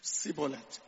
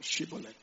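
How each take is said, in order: First: The word begins with a plain 's' sound. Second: The word begins with an 'sh' sound. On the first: The speaker calls it wrong. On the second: The speaker calls it right.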